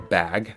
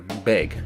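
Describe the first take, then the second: First: The vowel has a standard, non-Midwestern sound. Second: The vowel has a Midwestern sound. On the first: "instead of a bag" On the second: "I say uh, bag ... Apparently, that's a Midwestern thing"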